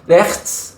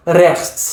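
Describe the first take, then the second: First: Rechts with a rising, more careful Dutch ch; better try at Dutch rechts; closer Dutch attempt. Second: Rechts tried with the Dutch guttural ch; careful Dutch rechts; attempted Dutch. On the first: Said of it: "I might get close sometimes". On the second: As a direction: struggle through rechts, Dutch style. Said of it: "I still can't say the word". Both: Shown as a demonstration.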